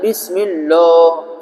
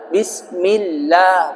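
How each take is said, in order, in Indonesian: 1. 'lah' itu berat dan tebal. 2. 'lah' itu ringan, mulut terbuka. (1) "itu jadi tebal, enggak boleh" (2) "lafaz Allahnya jadi tarqiq, tipis"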